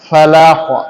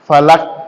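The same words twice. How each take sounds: First: The final consonant ends with an echoing bounce. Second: The final consonant ends flat without a bounce. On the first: The speaker calls it right. "কলকলা করতে হবে" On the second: The speaker calls it wrong. "ফালাক না"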